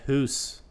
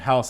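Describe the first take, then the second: First: The vowel sounds like 'oo'. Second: The vowel sounds like 'ow'. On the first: "the way they say house. ... they say hoose" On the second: "instead of saying house"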